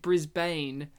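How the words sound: The name is said the American way. This is how the film says the name. "in this movie, they pronounce it Brisbane"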